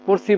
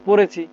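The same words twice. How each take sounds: First: পড়ছি with the middle vowel dropped; clipped two-syllable পড়ছি, no "e" after ড়; colloquial pronunciation. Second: পড়েছি with a clear "e" after ড়; full standard form পড়েছি, middle vowel sounded; standard pronunciation. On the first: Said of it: "পড়ছি বলা যাবে না". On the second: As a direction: say all three syllables of পড়েছি. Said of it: "বলতে হবে পড়েছি". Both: Shown as a demonstration.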